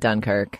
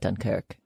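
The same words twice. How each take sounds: First: The stress is on the first syllable. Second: The stress is on the second syllable.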